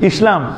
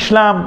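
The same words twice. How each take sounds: First: The s sound is a clear s. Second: The s sound comes out like sh. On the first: The speaker calls it right. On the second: The speaker calls it wrong.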